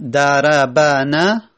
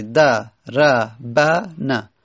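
First: دربنه spoken slowly with all four short vowels; slow دربنه to show four moving letters; slow demonstration. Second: دربنه stretched syllable by syllable, all four fathas audible; very slow syllabified. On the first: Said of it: "چهار حرکت سنگینه". (آهسته برای نشان دادن چهار حرکت) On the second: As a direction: draw دربنه out very slowly for the class. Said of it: "چهار تا فتحه". (بسیار آهسته و هجا به هجا) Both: Shown as a demonstration.

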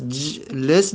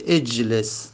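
First: جلس starting straight on a held, vowelless j; starts on bare consonant. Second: اجلس with a short e before the j; helping vowel added. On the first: Teacher showing what cannot be said, جلس begun on a bare j. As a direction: say جلس as j-les, no helping vowel. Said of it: "پس جلس نمیشه". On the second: Teacher adding a helping alef, اجلس begun with a clear e. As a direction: say اجلس as ej-les. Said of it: "مجبوریم الف کمکی برای خودمون". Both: Shown as a demonstration.

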